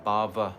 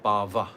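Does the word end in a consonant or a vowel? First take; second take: vowel; vowel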